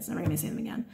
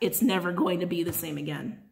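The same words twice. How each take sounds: First: The sentence is spoken very quickly. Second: The sentence is spoken slowly.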